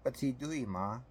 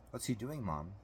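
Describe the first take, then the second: First: Put-on little-kid voice, pitched high; child's question. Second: Put-on child's question. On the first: Alex asks his mother too, in a high little-boy voice. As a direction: echo the question as a higher-voiced small child. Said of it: "Alex asked". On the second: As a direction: ask Mom softly, pitched up. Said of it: "Keith asked". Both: A narrator's reading.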